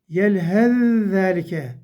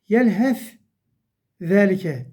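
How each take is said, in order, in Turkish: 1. İlk ünsüz, şeddeli ikinci ünsüzle birleşir. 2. İlk ünsüz ayrı telaffuz edilir. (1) "İkinci harfi okuyoruz genelde" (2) "Burada yelhef zelike demiyoruz artık"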